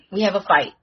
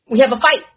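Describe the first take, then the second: First: Said in the usual way. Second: Loud declaration; punchy loud announcement; announcing the fight. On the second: Acted. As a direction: proclaim the battle to the table. Announcing the battle.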